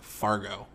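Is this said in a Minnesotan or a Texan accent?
Texan. It is said in a Texan-style American accent. "Let me try to like American, like Texanize that"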